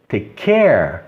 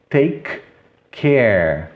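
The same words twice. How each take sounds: First: "take care" joined as tei-care. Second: "take" and "care" apart, both K sounded; palavras separadas. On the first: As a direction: drop the first K of "take care". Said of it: "tirar esse som aqui e falar". ("take care" ligado, um único K) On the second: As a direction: pause between "take" and "care". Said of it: "O som do K é o mesmo". ("take" e "care" separados) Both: Shown as a demonstration.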